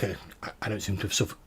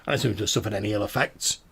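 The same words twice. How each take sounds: First: Spluttering with water in mouth. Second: Said in the usual way. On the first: Acted. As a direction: talk while spitting out water. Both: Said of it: "and he spits out a bit of water".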